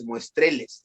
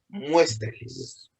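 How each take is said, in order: First: The stress is on the second syllable. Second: The stress is on the first syllable. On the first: The speaker calls it wrong. "la penúltima de tres sílabas es la tónica y no, no es muestreles" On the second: The speaker calls it right. "la tónica es la primera"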